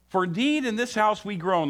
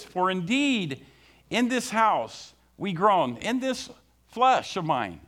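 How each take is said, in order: First: Said in the usual way. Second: Slow emphatic reading. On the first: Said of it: "This is what God's word says". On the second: Shown as a demonstration. Preacher reading the verse slowly to the congregation. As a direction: read each word slowly and deliberately. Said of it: "I want you to listen to it again".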